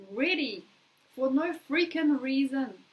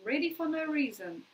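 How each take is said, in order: First: Slow, louder and emphatic on "ready for no freaking reason". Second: Said in the usual way. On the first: Shown as a demonstration. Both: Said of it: "this is a crazy thing".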